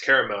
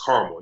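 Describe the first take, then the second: First: Caramel said as CARE-uh-mel; three-syllable caramel. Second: Caramel said as CAR-mul; two-syllable caramel. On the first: One side of a pronunciation disagreement, caramel as CARE-uh-mel. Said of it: "Oh, it's pronounced caramel". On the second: Correcting the other person's pronunciation, caramel as CAR-mul. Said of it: "No, it's pronounced caramel". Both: Shown as a demonstration.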